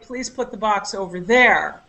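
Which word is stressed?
there. The stress is on the word there.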